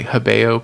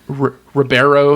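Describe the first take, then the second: First: The name has a Brazilian Portuguese pronunciation. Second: The name has an American English pronunciation. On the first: "It'd be like Hebeo probably because it's a Brazilian guy" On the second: "if I want to pronounce it the American way"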